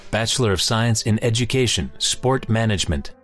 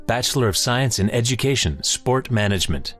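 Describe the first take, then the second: No difference in how they are said.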